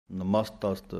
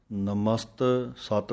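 First: ਨਮਸਤਸਤ said as nəmast-ast, both halves joined; the correct reading ਨਮਸਤਸਤ; correct pronunciation. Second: ਨਮਸਤ ਸਤ with a break before a repeated ਸਤ; the common mistaken reading ਨਮਸਤ ਸਤ; wrong pronunciation. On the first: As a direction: join ਨਮਸਤਸਤ smoothly into one word. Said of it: "ਸਹੀ ਉਚਾਰਨ". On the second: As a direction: split it wrongly as ਨਮਸਤ then ਸਤ. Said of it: "ਜੋ ਕਿ ਗਲਤ ਉਚਾਰਨ ਹੈ". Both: Shown as a demonstration.

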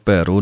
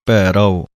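First: ਭੈਰੋ with the ending slurred to bhairo; wrong pronunciation. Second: ਭੈਰਵ said with a clear final ਵ, bhai-rav; correct pronunciation. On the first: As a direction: show the mistake ਭੈਰੋ, the ਵ swallowed into o. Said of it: "ਨਹੀਂ ਕਹਿ ਦੇਣਾ ਹੈ". (ਗਲਤ ਉਚਾਰਨ ਭੈਰੋ) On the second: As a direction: say ਭੈਰਵ carefully as bhairav, not bhairo. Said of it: "ਇਹਨੂੰ ਭੈਰੋ ਨਹੀਂ ਕਹਿ ਦੇਣਾ ਹੈ". (ਭੈਰਵ ਸਾਫ਼ ਉਚਾਰਨ ਨਾਲ) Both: Shown as a demonstration.

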